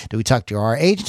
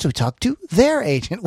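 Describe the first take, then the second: First: Said in the usual way. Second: Their lifted high and rising; stress on their. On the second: Shown as a demonstration. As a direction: hit their to set it against our.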